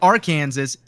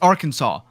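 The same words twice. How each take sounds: First: The word ends sounding like the name Kansas. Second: The word does not end sounding like Kansas. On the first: The speaker calls it wrong. "It's not it's not Arkansas" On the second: The speaker calls it right. "it's Arkansas"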